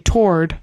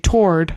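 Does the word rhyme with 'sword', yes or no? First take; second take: yes; yes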